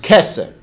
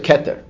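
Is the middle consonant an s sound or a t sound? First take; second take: s sound; t sound. First: The middle consonant is an s sound. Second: The middle consonant is a t sound.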